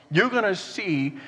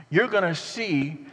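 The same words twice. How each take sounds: The two takes are said the same way.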